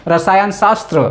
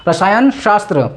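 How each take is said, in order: Both takes have the same delivery.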